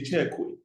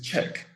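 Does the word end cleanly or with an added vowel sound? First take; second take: added vowel; cleanly. First: The word ends with an added vowel sound. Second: The word ends cleanly with no added vowel. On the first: The speaker calls it wrong. "Neither do you say check way" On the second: The speaker calls it right. "It is check"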